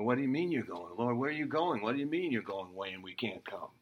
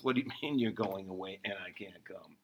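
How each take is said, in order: First: A hint of a confused Peter, rushing the last question faster; quick, baffled disbelief in Peter's voice; bewildered Peter. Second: Laughing through Peter's puzzled question; amused Peter quote. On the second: Retold or imitated. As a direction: let a chuckle break into the question. Same Peter quote retold, laughing.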